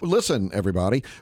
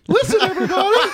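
First: It is said in a normal speaking voice. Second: It is said in a squeaky, high-pitched voice.

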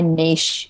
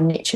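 First: It is said the Australian way. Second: It is said the American way.

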